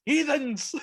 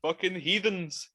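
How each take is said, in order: First: Much higher put-on voice, louder, mocking a scandalised cleric; hammed-up clerical disdain; mock priest. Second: Said in the usual way. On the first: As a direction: sneer it like a pompous priest.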